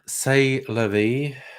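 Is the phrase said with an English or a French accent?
English. It is said with an English accent.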